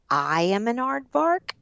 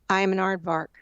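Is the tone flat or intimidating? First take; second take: intimidating; flat. First: It is said forcefully, meant to intimidate. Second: It is said flatly, with no intent. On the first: The listener should feel threatened. "You want that bully to feel intimidated" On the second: The words are said to nobody in particular. "it doesn't mean anything and you're not talking to anybody"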